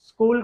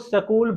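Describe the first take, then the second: First: The s joins the k with no vowel between. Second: A short vowel is inserted between s and k.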